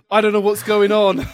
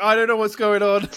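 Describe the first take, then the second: First: High, loud confused outburst; confused panic. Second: High, loud flustered panic; panicked exclaiming. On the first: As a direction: blurt it out in a fluster. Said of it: "got very confused and went". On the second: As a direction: blurt it out, totally lost. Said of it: "I was like". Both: Retold or imitated.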